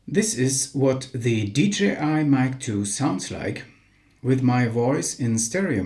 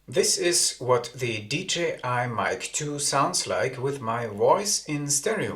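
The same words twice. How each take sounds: First: The sound is unprocessed, with full low end. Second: Low frequencies are filtered out of the sound. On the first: "No low cut filter nor noise cancelling activated" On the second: "The low cut filter has been activated"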